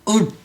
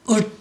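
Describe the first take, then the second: The two takes are said the same way.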